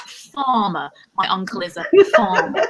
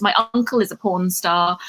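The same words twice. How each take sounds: First: FARMER said properly with an open "far"; corrected pronunciation. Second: FARMER botched into "porn star", said deadpan; mispronounced farmer. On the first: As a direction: correct yourself, sounding out "farmer" with a clear f and long ah. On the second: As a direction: slip "porn star" in where farmer belongs, in the same even list tone. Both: Shown as a demonstration. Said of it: "I mispronounced that".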